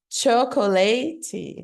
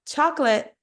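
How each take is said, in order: First: Every syllable is pronounced separately and fully. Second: It is said quickly with syllables reduced. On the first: The speaker calls it wrong. "a gente sente a necessidade de falar cada sílabazinha" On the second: The speaker calls it right. "se a gente falar chocolate, ninguém vai entender"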